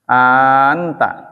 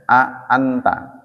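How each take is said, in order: First: The opening vowel is drawn out into one long vowel. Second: The opening vowel is a separate short syllable. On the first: "Boleh dipanjangin" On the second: "jadi a-nya di, diucapkan a anta"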